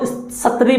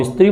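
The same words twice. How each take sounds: First: "सत्री" as sat-ree, with a vowel after the S; no leading i in "सत्री", just sat-ree; full sa sound. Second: "स्त्री" as is-tree; added initial i. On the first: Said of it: "इसको क्या बोलेगा". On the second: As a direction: say "स्त्री" with a short i before the S. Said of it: "इसको हम स्त्री बोलते हैं". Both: Shown as a demonstration.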